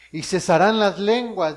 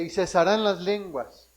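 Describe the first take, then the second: First: "cesarán las lenguas" read out much louder; preacher proclaiming the verse loudly; emphatic. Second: "cesarán las lenguas" repeated slowly and deliberately; preacher repeating the verse slowly so it sinks in. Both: Shown as a demonstration. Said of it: "dice, y cesarán las lenguas".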